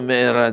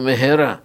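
First: The middle h sound is weak or dropped. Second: The middle h sound is clearly breathed out. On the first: The speaker calls it wrong. "אל תגידו מהרה" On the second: The speaker calls it right. "תגידו מהרה"

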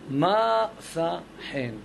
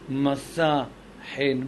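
First: The stress of masa is on the first syllable. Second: The stress of masa is on the last syllable. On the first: The speaker calls it right. "אלא מסע חן" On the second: The speaker calls it wrong. "לא אומרים מסע חן"

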